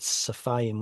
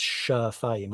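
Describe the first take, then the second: First: The word begins with an s sound. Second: The word begins with an sh sound. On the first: The speaker calls it wrong. "earlier I said safayim" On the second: The speaker calls it right. "when it's shafayim"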